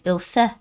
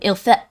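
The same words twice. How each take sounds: First: The ending has no trace of a T sound. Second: The ending has the start of a T sound. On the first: The speaker calls it right. "doesn't even have the beginning part of the T" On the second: The speaker calls it wrong. "It's not like she's saying il fait"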